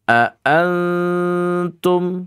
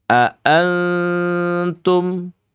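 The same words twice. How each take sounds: Both takes have the same delivery.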